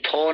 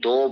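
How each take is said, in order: First: The word begins with an aspirated 'th' sound. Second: The word begins with a soft 'd' sound. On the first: The speaker calls it wrong. "नहीं थो नहीं पढ़ते" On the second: The speaker calls it right. "इसको दो बोलते हैं"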